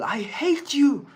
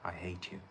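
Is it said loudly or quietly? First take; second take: loudly; quietly. First: It is yelled loudly. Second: It is said quietly.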